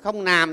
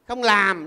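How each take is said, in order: First: The second word starts with an N sound. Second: The second word starts with an L sound. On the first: The speaker calls it wrong. "cái người nó phát âm chế ăn L không được, nó không nàm" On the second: The speaker calls it right. "cái bằng L nó phát âm được"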